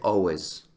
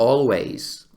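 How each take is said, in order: First: The word is pronounced casually and reduced. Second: The word is pronounced carefully and fully. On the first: This is how people really talk. "la gente dice always" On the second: This is the textbook pronunciation. "está bien dicho"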